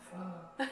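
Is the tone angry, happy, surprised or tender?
tender. It is said in a tender tone.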